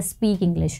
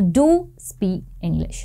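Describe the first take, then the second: First: Said in the usual way. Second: Slow, stressed "do" in do speak English; emphatic do. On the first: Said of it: "हम generally क्या बोलते हैं". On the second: Shown as a demonstration. Teacher showing students the emphatic imperative, slow stressed do. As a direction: lean on do, slowly. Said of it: "जोर देकर बोलना है".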